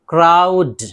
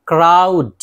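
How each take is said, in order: The two takes are said the same way.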